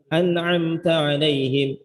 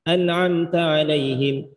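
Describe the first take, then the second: The two takes are said the same way.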